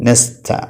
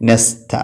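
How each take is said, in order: Both takes have the same delivery.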